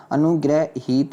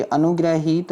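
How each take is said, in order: First: अनुग्रहीत said "anu-grai-hit", evenly spaced; correct version. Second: अनुग्रहीत said "anu-grai-heet", long ee; wrong pronunciation. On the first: Teacher corrects students, अनुग्रहीत as "anu-grai-hit". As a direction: give अनुग्रहीत in separate even parts. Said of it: "ये वाला होगा". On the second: Teacher shows the error, अनुग्रहीत as "anu-grai-heet". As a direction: stretch the ee in अनुग्रहीत. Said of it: "अनुग्रहीत नहीं होता". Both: Shown as a demonstration.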